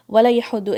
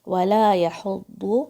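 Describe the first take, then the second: First: وَلَا يَحُضُّ rattled off fast and loud, لام run into یا; rushed wrong reading. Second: وَلَا يَحُضُّ slowly, the full لام الف held; full lam alif. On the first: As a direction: show the hurried mistake. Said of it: "اتنا جلدی نہیں بولنا ہے". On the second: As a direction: recite it unhurried and complete. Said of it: "لام الف پورا پڑھنا ہے". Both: Shown as a demonstration.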